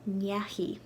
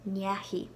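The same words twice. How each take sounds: First: The word ends with a 'hee' sound. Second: The same.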